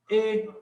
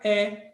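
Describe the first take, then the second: First: The vowel is said closed, like 'ay'. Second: The vowel is said open, like 'eh'. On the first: This is how other regions say it. "em outras regiões do país, eles vão dizer que isso aqui é o E" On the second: This is how the Northeast says it. "É aberto"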